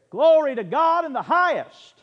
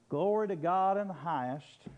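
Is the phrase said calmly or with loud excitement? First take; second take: excitedly; calmly. First: It is said loudly with great excitement. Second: It is said calmly, like a plain talk. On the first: It is a joyful celebration of the king's arrival. The speaker calls it right. "This was the King of Heaven. I can see him there" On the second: It is a mere announcement. The speaker calls it wrong. "You really think they said it like that?"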